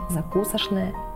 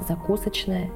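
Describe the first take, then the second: First: The word is said in an older pronunciation. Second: The word is said in the current pronunciation. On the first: This was the norm in the 1940s. "В 40-х годах 20 века нормой было произносить" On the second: This is today's norm. "Сегодня же норма изменилась, и мы говорим"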